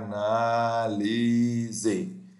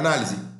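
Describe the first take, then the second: First: The word is drawn out very slowly. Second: The word is spoken very quickly. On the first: The signal has been expanded in time. "eu ouviria esse sinal de voz cinco vezes mais lento" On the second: The signal has been compressed in time. "eu falaria análise muito mais rápido"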